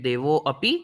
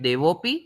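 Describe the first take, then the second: First: A separate 'a' vowel is said after 'devo'. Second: No separate 'a' vowel is said after 'devo'. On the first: "You can choose to pronounce it as A" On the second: "or don't pronounce it at all"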